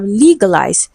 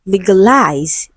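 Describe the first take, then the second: First: "legalize" with the weight on LEE; stress on first syllable. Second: "legalize" slowly with the weight shifted to -LIZE; stress on last syllable. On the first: Teacher reads the option to students, "legalize" stressed on LEE. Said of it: "stressed on the first syllable". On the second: Teacher shows how we speak, "legalize" stressed on -LIZE. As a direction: land on the final syllable of "legalize". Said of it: "it is stressed on the last syllable". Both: Shown as a demonstration.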